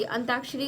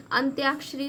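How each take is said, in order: First: अंत्याक्षरी without the y-glide, as "antaakshari"; misspelt form. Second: अंत्याक्षरी with a clear "tyaa" glide; corrected form. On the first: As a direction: say अंत्याक्षरी with a plain t before aa. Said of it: "गलत लिखा है". (अंत्याक्षरी को बिना य के "अंताक्षरी" बोलें) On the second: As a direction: sound the y after t in अंत्याक्षरी. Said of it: "आधा त भी रहेगा". (अंत्याक्षरी में "त्या" साफ़ बोलें) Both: Shown as a demonstration.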